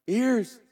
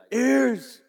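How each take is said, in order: First: Calling out. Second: Much higher, loud call. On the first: Shown as a demonstration. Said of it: "give me the pleasure of doing it one time". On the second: Retold or imitated. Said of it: "and I'd be like". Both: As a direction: snap the kids to attention.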